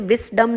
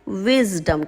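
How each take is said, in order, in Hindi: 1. बीच का व्यंजन फुसफुसाती हुई 's' ध्वनि है। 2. बीच का व्यंजन गूंजती हुई 'z' ध्वनि है। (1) "हम इसे विस्डम नहीं कहते" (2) "यहाँ पर ज करके साउंड आता है"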